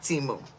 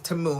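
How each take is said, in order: First: The first vowel sounds like 'ee'. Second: The first vowel sounds like 'ah'. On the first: The speaker calls it wrong. "not Timu" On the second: The speaker calls it right. "the proper way to say it. It's Tamu"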